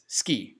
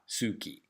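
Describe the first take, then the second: First: The vowel after the s is silent. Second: The vowel after the s is fully voiced. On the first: The speaker calls it right. "Notice the pronunciation, it's ski" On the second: The speaker calls it wrong. "not suki"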